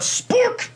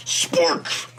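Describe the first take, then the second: First: Much higher cheer of the name; excited cheer. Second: Unvoiced whisper of Spork; whispered echo. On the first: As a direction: call out Spork in triumph. Cheering his Pokemon. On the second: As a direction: breathe Spork out softly. Repeating the name quietly. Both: Real, not acted.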